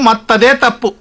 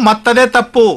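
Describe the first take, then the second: The two takes are said the same way.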